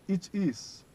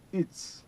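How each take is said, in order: First: Two separate words are said in full. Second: The words merge into one short syllable.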